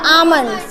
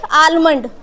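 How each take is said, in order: First: आमंड with no L at all; silent L. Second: आलमंड with the L sounded; wrong आलमंड, L fully pronounced; mispronounced with L. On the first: Shown as a demonstration. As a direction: model the corrected आमंड, vowel straight into M. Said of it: "correct pronunciation होती है". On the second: Retold or imitated. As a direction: echo the learners' mistake आलमंड, clear L before M. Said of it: "पीछे क्या बोल रहे थे".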